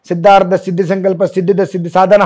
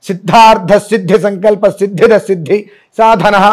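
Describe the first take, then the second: First: The consonant clusters are pronounced softly and weakly. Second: The consonant clusters are pronounced firmly and strongly. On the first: This is how others usually say it. The speaker calls it wrong. "అంటారు" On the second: This is the proper way others cannot manage. The speaker calls it right. "ఒత్తులు గట్టిగా చెప్పలేరు"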